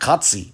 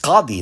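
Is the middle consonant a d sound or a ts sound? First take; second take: ts; d. First: The middle consonant is a ts sound. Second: The middle consonant is a d sound. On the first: The speaker calls it wrong. "not Qatsi, ... the pronunciation would be off" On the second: The speaker calls it right. "It's it's Qadi"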